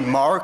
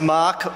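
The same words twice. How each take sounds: First: The name is said with an American accent. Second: The name is said with an Australian accent. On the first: The speaker calls it wrong. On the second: The speaker calls it right.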